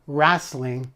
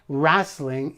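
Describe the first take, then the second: First: The word is said with a Canadian pronunciation. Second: The same.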